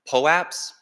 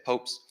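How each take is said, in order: First: The word is said with two syllables. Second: The word is said as one syllable, popes. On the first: "that's how I pronounce it" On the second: "Lots of people say popes"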